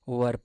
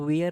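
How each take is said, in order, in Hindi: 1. स्वर 'ur' जैसा सुनाई देता है। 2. स्वर 'air' जैसा सुनाई देता है। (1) "वर पढ़ेंगे" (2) "इसको वेयर नहीं पढ़ेंगे ना आप"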